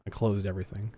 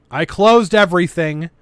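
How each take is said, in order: First: Said in the usual way. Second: Louder annoyed outburst; frustrated exclamation. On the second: Real, not acted. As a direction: blurt it out in frustration.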